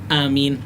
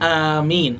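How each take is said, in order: First: The first vowel is kept short. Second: The first vowel is drawn out long. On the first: "pendek aja" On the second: "A-nya panjang"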